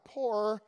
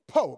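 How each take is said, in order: First: The word is said in full with its r. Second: The word is cut short without its r. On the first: This is the ordinary word for being poor. The speaker calls it wrong. "not poor" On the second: This is how poor people themselves say it. The speaker calls it right. "when poor people call you poor, you lose your O&R"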